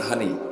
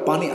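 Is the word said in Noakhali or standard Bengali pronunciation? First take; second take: Noakhali; standard. First: It is said Noakhali-style with h. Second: It is said in standard Bengali with p.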